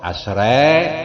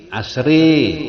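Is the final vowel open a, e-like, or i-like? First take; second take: e-like; i-like. First: The final vowel is tilted slightly toward e. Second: The final vowel is bent strongly toward i.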